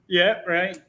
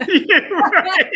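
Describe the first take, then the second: First: Said in the usual way. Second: Laughing out yeah, right; yeah, right said through a laugh; amused laughing reply. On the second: Real, not acted. Laughing at the host's story.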